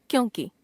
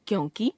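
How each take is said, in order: First: Said in the usual way. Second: क्योंकि ending on long ई, rising; wrong pronunciation. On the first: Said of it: "शुद्ध". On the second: Shown as a demonstration. Teacher showing a common error, क्योंकि with long last vowel. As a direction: stretch कि to की in क्योंकि. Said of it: "अशुद्ध".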